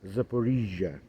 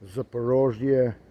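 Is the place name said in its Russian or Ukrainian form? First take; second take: Ukrainian; Russian. First: The name is said in its Ukrainian form. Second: The name is said in its non-Ukrainian form.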